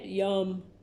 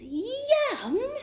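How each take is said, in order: First: It is said flatly, without excitement. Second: It is said with excitement.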